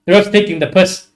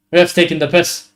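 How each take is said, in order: Both takes have the same delivery.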